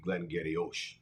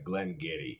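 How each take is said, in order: First: The name ends in a longer 'ee-ock' sound. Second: The name ends in a short 'ee' sound. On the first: The speaker calls it wrong. "if you pronounced it the way it was spelled" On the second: The speaker calls it right. "spelled so differently than it's pronounced"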